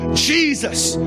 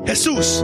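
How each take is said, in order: First: The name is pronounced the English way. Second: The name is pronounced the Spanish way. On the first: "En inglés" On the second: "cuando se habla en español"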